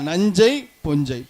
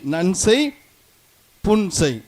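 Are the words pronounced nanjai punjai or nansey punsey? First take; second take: nanjai punjai; nansey punsey. First: The words are said in colloquial form, nanjai punjai. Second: The words are said in formal form, nansey punsey. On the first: This is how people say it in everyday speech. "பேச்சு வழக்கில்" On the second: This is the form used in writing. "எழுத்து வழக்கில்"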